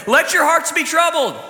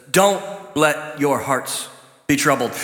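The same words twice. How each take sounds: First: Mock misquote. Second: Slow, lower, gentle reading of "Don't let your hearts be troubled"; calm scripture reading; correct reading. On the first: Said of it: "that's not what it says". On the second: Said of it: "It says". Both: Shown as a demonstration.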